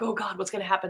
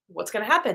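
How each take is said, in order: First: It sounds full of dread. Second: It sounds excited and eager.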